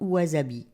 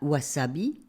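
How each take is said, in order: First: The middle consonant is a buzzing Z sound. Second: The middle consonant is a hissing S sound. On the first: The speaker calls it wrong. "et non Z" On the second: The speaker calls it right. "un S se prononce S et non Z"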